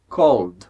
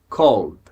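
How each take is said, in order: No difference in how they are said.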